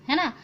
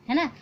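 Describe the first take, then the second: No difference in how they are said.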